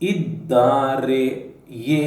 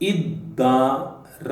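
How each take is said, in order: First: The word is said with its full ending. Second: The word is said with a clipped ending. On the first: It is the formal grammatical form. "This is grammatical" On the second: It is the everyday spoken form. "this is spoken"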